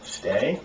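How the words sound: The word is said softly and gently. The dog feels calm enough to hold the command. The speaker calls it right. "try to be more gentle"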